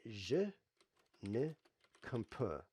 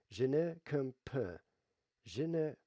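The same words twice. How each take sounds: First: Halting English-accented French; slow, careful tourist French; foreign accent in French. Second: Slow English-accented French; foreign accent in French. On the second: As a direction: spell out the French word by word. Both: Shown as a demonstration. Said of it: "I'm trying to speak French here".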